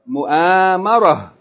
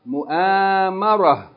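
First: The word ends with a soft 'h' sound. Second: The same.

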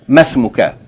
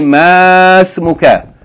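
First: The vowel after the m is cut short. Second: The vowel after the m is held long. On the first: The speaker calls it right. "you're going to pronounce it short as though the alif is not there" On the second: The speaker calls it wrong. "You're not going to say masmuka"

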